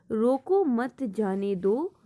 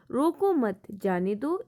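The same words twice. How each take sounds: First: "रोको" set apart by a short pause, then "मत जाने दो"; pause after "रोको". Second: "रोको मत" as one unit, short pause, "जाने दो"; pause after "मत". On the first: Teacher demonstrating where the comma falls, pause after "रोको". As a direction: stop briefly after "रोको", then finish the phrase. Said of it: "रोको के बाद थोड़ा सा ठहरा है". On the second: Teacher showing the second comma example, pause after "मत". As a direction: run "रोको" into "मत", break before "जाने दो". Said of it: "इस तरह से बोला जाए". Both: Shown as a demonstration.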